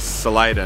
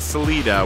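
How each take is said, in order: First: The name is said in an English-sounding way. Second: The name is said in a Spanish-sounding way. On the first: This is how the locals say it. The speaker calls it right. "the Coloradoans say Salida" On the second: This is how an outsider would guess it. The speaker calls it wrong. "not Salida, which I thought the pronunciation because it was Spanish"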